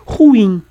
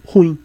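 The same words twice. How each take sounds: First: "ruim" in two syllables, stressed ru-IM; loud, high "ruim" with a full IM; correct stress. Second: "ruim" squeezed to one syllable, RUim; short "ruim", stressed on RU and falling; common wrong stress. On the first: Teacher modelling the oxytone word, emphatically stressed. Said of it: "Como também é oxítona". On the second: Teacher quoting what most people say, mis-stressed. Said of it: "a maioria das pessoas acaba dizendo". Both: Shown as a demonstration.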